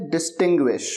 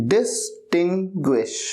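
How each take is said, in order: First: Said in the usual way. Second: Distinguish drawn out very slowly, each syllable clear; careful pronunciation. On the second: Shown as a demonstration. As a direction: spell out Distinguish slowly for the class, every sound distinct. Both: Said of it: "आपको pronunciation का भी ध्यान रखना है".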